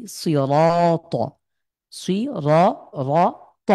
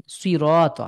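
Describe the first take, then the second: First: সিরাত drawn out very slowly, mouth filled; সিরাত with a heavy, rounded র; full-mouthed র. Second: সিরাত with a light, thin র. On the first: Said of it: "মুখের মধ্যে ভরাট করে পড়ি". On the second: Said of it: "এটা চিকন হয়ে গেল". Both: Shown as a demonstration.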